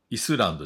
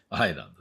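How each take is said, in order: First: The word begins with an 'ee' sound and an s. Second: The word begins with an 'eye' sound, no s. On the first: The speaker calls it wrong. "イスランドじゃないですね" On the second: The speaker calls it right. "アイランドね"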